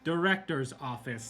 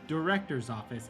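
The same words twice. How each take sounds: First: It is said very firmly and emphatically. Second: It is said in a somewhat annoyed tone. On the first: The request is now an insistent demand. "like really, you know, means it this time" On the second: The request is repeated with growing impatience. "a little bit more annoyed"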